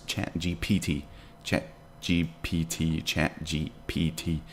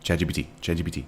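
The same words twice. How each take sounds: First: Slow, separated letters. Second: Quick tongue-twister attempt at Chat G P T; rapid repetition. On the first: Streamer testing the tricky name, slow and careful. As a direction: Chat G P T, each letter slow and distinct. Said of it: "But you can say Chat G P T super fast". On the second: Streamer testing if they can say it, rapid-fire. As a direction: rattle off Chat G P T fast, slurring the letters together. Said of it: "see, I can't say that". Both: Shown as a demonstration.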